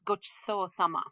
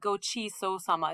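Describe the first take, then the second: First: The vowel after ch is voiceless. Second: The vowel after ch is fully voiced. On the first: The speaker calls it right. "That chi sound is a voiceless vowel" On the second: The speaker calls it wrong. "it's not gochi-so sama"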